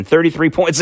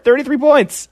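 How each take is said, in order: First: Said in the usual way. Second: Thirty-three points jumps much higher in pitch, each word hammered; Thirty-three points flung up high in disbelief; emphatic repeat. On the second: Real, not acted. Repeating the poll lead for effect.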